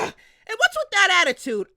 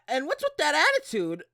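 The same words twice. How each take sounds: First: The line is yelled loudly. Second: The line is spoken at normal volume.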